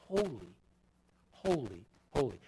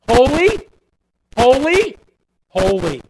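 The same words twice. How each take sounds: First: Much softer and lower, almost breathed; hushed reverent. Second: Louder and higher, ringing proclamation; proclaiming. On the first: Preacher echoing angels' song to congregation, hushed awe. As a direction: drop to an awed hush. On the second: Preacher quoting seraphim to congregation, loud proclamation. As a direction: cry it out like angels in praise. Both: Acted.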